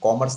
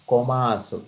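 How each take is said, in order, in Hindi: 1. यह भारतीय अंग्रेज़ी उच्चारण में बोला गया है। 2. यह जापानी उच्चारण में बोला गया है। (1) "कॉमर्स नहीं बोलें" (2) "वो जापानी एक्सेंट में आप बोलें"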